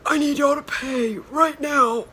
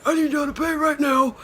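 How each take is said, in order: First: High, loud put-on voice of an older man demanding payment; imitating the parking attendant, loud and high; stern parking attendant. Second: High, loud repeat of the demand; imitating the attendant, loud and high; stern parking attendant. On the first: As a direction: bark the order like a no-nonsense meter guy. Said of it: "dead ass, that's how he sounded". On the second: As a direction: insist again in the attendant's voice. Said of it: "he's like".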